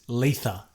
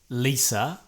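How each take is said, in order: First: The middle sound is a lisped th. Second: The middle sound is a clear s. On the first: "spoken like someone who has an extreme lisp" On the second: "this lady's name is Lisa"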